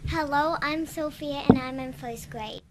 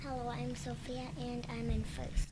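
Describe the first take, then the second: First: It is said loudly. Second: It is said quietly.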